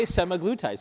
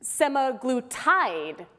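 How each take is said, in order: First: "semaglutide" said briskly, as the speaker normally says it; own pronunciation. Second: "semaglutide" drawn out slowly as the odd variant; wrong pronunciation. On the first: Cohost states how he says it, at ordinary pace. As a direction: say "semaglutide" quickly, in an everyday way. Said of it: "I say semaglutide". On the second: Host tests a wrong pronunciation on the audience, slow and drawn out. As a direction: stretch out "semaglutide" slowly, syllable by syllable. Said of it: "errant pronunciation". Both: Shown as a demonstration.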